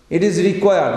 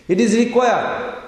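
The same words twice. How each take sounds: First: Said in the usual way. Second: Is stressed, said higher and slower. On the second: Shown as a demonstration. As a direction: lean hard on "is" in "It is required".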